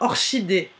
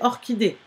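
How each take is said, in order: First: The ch is said as an sh sound. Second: The ch is said as a k sound. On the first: The speaker calls it wrong. "ça ne se dit pas" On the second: The speaker calls it right. "donc c'est orchidée"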